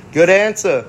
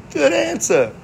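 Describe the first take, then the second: First: Said in the usual way. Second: Good answer. pitched way up, falling; high approving. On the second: Retold or imitated. Approving the answer, pitched high.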